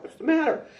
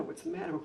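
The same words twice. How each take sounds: First: "matter" yelled much higher and louder; upset shout. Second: Said in the usual way. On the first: Retold or imitated. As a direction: fire the question off, getting frantic. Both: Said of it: "the more I got upset".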